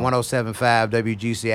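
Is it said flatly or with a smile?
flatly. It is said flatly, without smiling.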